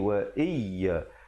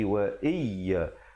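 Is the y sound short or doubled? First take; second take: short; short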